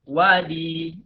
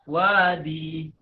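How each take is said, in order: The two takes are said the same way.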